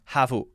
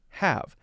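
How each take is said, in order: First: The word is said as two syllables. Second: The word is said as one syllable. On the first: The speaker calls it wrong. "To say it as a two-syllable word would be havu" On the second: The speaker calls it right. "pronounced as a one-syllable word"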